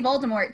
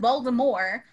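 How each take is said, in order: First: The final T is sounded. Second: The final T is silent. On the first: The speaker calls it wrong. "even in the movies, they say Voldemort" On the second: The speaker calls it right. "The only person who pronounces it right is J K. Rowling, who says Voldemort"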